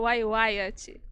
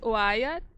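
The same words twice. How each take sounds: First: "Wai, Wyatt" as uai-uai-a-tchi; Portuguese-style pronunciation. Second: "Wyatt" as two-part uai-a; English-style pronunciation. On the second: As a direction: say "Wyatt" without a tchi ending. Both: Shown as a demonstration. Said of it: "Dá pra falar dos dois jeitos".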